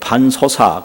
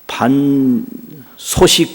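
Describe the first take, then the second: First: The final syllable is pronounced 'sa'. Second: The final syllable is pronounced 'sik'. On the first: It is read as 'coarse rice'. The speaker calls it right. "꼭 그렇게 읽으셔야 돼요" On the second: The reader does not know the classics. The speaker calls it wrong. "반소식 그러면 그 논어 모르는 사람이거든요"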